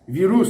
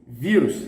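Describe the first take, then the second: First: The stress is on the last syllable. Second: The stress is on the first syllable. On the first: The speaker calls it wrong. "the stress is in the last" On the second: The speaker calls it right. "the stress is in the penultimate"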